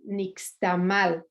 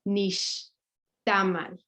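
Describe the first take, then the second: First: The stress is on the last syllable. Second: The stress is on the second-to-last syllable. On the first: The speaker calls it wrong. "because there's an accented last vowel, which actually is incorrect" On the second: The speaker calls it right. "but it's actually nixtamal"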